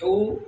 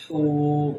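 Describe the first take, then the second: First: ہو with a short, high u; short vowel. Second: ہو with a long held oo; long vowel. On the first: Teacher drills bare pesh, ہو kept short. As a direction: keep ہو brief. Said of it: "صرف پیش ہے تو ہم اس کو لمبا نہیں". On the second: Teacher drills wao madda, ہو held long. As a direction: stretch out the vowel of ہو. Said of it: "آواز کو لمبا کر رہے ہیں". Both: Shown as a demonstration.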